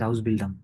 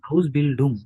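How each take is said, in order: First: The last syllable has an 'ah' vowel. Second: The last syllable has an 'oo' vowel. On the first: The speaker calls it wrong. "আপনারা ভুল শিখছেন যে হাউস বিল্ডাং, এরকম না।" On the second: The speaker calls it right. "হাউস বিল্ডুং, বিল্ডাং না"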